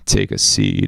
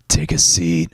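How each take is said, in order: First: The voice is creaky with vocal fry. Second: The voice is smooth and low. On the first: "I can do vocal fry too" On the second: "Do a smooth, low voice"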